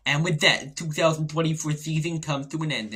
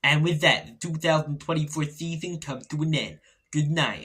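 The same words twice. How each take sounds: First: Mock dramatic voiceover, louder; reel voiceover again. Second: Dramatic movie-trailer voiceover; louder, announcing the year's end; end-of-season reel voiceover. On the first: For the next reel in the feed, a hammed-up voiceover. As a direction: announce it like a trailer narrator. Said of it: "and you see". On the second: Pretend. For a fan's end-of-year reel, a mock dramatic voiceover. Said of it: "I sound like that fella in voiceovers".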